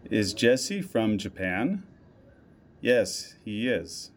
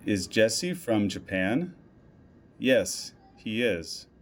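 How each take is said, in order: Both takes have the same delivery.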